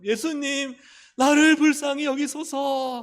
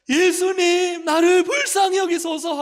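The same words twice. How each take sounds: First: High, loud, drawn-out plea; imitating a blind man's pleading shout; loud cry out. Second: Very high, full-volume acted cry; imitating a blind man shouting to be heard; louder desperate shout. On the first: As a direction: call out to be noticed, high and loud. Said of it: "크게 소리 질렀어요". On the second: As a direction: yell the plea at the top of your voice. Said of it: "더 크게 소리를 질러서".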